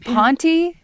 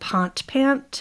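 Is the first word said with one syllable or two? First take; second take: two; one. First: The first word has two syllables. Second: The first word has one syllable. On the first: "I don't know if it's supposed to be like" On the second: "I'm going to say it wrong, but I say"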